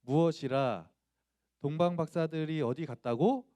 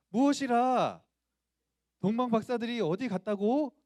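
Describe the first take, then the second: First: Shy schoolboy's feeble attempt at anger; stiff bad acting. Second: High, very loud outburst of stage rage; big, forceful theatrical indignation; furious acting. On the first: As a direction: act the angry line badly, louder but without fury. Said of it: "정말 발연기로". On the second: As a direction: roar it as an outraged king, giving it everything. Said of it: "분노하라고".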